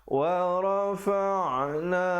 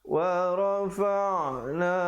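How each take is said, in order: Both takes have the same delivery.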